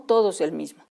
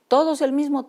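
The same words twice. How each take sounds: First: Said in the usual way. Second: Todos pitched high and pressed hard; emphatic insistence. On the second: Shown as a demonstration. (recalcando Todos con tono alto)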